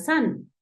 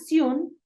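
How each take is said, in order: First: The vowel sounds closer to an A. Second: The vowel sounds closer to an O. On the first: "recuerda que nosotros lo vamos a usar más como una san, inicialmente como una A" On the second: "o suena Sion"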